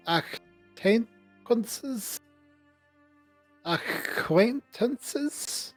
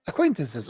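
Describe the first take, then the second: First: "acquaintances" high, soft and very slow; questioning "acquaintances". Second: "acquaintances" quick, with a falling end; settled "acquaintances". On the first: Natalia unsure of her word, a slow questioning "acquaintances". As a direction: sound out "acquaintances" haltingly, rising as a question. Character gropes for a difficult word. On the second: Natalia having found her word, a settled "acquaintances". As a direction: say "acquaintances" straight through, no longer asking. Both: Acted.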